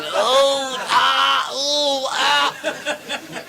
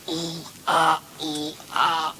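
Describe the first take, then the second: First: Rhythmic wailed oohs and aahs; mock moaning. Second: High, restrained moans; rhythmic little oohs and aahs; mock moaning. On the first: Imitated moans from toilet cubicle. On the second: Sailors overheard by approaching policeman, higher muted moaning. Same moans heard again, softer.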